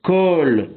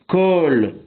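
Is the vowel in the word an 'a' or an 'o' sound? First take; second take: o; o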